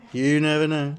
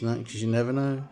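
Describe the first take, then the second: First: "You never know" said again louder, leaning on "You"; emphatic repeat. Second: Said in the usual way. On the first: Shown as a demonstration. Musing about space to viewers, emphatic "You". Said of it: "'cause you never know".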